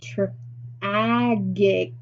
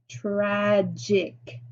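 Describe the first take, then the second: First: The g is hard, as in go. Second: The g is soft, as in jam. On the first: The speaker calls it wrong. "We're going to try this sound first" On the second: The speaker calls it right. "Let me flip it to the J sound"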